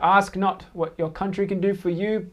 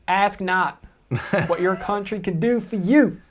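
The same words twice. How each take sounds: First: It is said in the speaker's normal accent. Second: It is said in an attempted American accent. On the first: "You didn't do your accent, mate" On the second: "I can't do an American accent"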